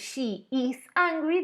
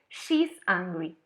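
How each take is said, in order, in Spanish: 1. El verbo se dice como una palabra separada y completa. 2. El verbo se acorta y se une a she. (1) "en vez de decir she is angry" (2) "de una manera más abreviada"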